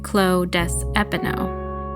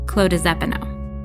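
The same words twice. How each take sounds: First: The words are said separately, without a linking Z. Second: The words run together, with the S linked as Z. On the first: The speaker calls it wrong. "instead of saying" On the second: The speaker calls it right. "you say it all quick at once"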